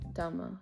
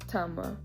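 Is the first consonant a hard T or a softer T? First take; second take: softer T; hard T. First: The first T is said softer and gentler. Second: The first T is said hard and crisp. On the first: "they say it a little softer" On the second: "Tama is still correct and that sounds right"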